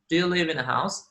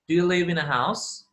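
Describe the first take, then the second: First: The words are linked smoothly together. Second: The same.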